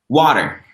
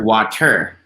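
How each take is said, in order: First: The stress is on the first syllable. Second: The stress is on the last syllable. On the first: "I put more stress on the first one on the wa" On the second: "on the last one, I put more stress on the er"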